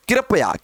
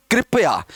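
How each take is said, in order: First: कृपया said as "kirapaya", with an extra vowel after k; common mispronunciation. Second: कृपया said as "kripaya", with k and r joined in a cluster; correct pronunciation. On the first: Teacher showing students the common mistake with कृपया, said "kirapaya". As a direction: say कृपया the wrong way, "ki-ra-pa-ya". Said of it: "कई लोग बोलते हैं". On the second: Teacher giving students the correct कृपया, said "kripaya". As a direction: say कृपया properly, "kri-pa-ya". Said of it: "कृपया नहीं है". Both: Shown as a demonstration.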